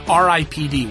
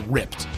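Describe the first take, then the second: First: It is spelled out as separate letters. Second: It is said as a single word. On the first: The speaker calls it right. "which I believe that's how you say it" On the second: The speaker calls it wrong. "You don't say ripped"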